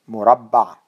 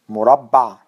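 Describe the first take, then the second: No difference in how they are said.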